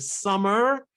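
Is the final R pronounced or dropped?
pronounced. The final R is clearly pronounced.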